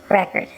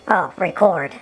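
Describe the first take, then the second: First: Record with stress on the first syllable, REK-erd; Record, noun stress on the front. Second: Record with stress on the second syllable, ri-KORD; record, stress on the end; verb record. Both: Shown as a demonstration. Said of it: "Is that record or record?".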